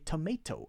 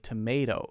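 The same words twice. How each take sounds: First: The middle consonant is a clear T sound. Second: The middle consonant is a light D sound. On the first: The speaker calls it wrong. "I won't say tomato" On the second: The speaker calls it right. "I'll say tomato, tomato, da, da"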